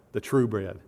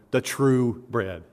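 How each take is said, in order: First: Said in the usual way. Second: "true" slow and weighted in "the true bread"; stress on true. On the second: Shown as a demonstration. Preacher stressing Jesus's words to the congregation, "true" drawn out. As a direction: lean hard on "true", slowly. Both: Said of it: "put at the very end to emphasize".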